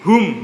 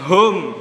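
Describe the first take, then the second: First: The vowel is a clear u sound. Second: The vowel is not a clear u sound. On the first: The speaker calls it right. "hum ya pakai u" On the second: The speaker calls it wrong. "Jangan hum"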